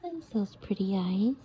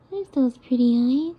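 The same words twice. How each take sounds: First: Said in the usual way. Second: Louder, happy coo; delighted coo. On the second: Real, not acted. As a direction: greet the eyes with delight. Delight repeated.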